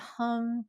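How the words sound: The hum sits high in the throat. "when it's in your throat"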